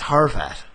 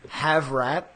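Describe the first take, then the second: First: The name starts with har and sounds like harvat. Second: The name sounds like the words have rat. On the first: The speaker calls it right. "It's Harvat" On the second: The speaker calls it wrong.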